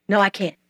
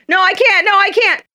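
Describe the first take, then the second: First: Said in the usual way. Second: Higher, louder protesting whine; high, louder childish no, I can't; high whiny refusal. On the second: Acted. Eaglet refuses to fly.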